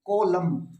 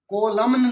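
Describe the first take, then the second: First: The word ends with an m sound. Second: The word ends with a pronounced n sound. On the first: The speaker calls it right. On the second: The speaker calls it wrong.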